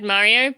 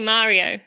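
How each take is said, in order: First: The name is said in an American-style accent. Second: The name is said in a British accent. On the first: "I said Mario" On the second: "we say Mario"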